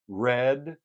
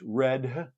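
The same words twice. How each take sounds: First: The final d ends without any added vowel. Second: The final d is released with a small vowel.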